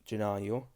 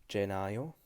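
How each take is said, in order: Both takes have the same delivery.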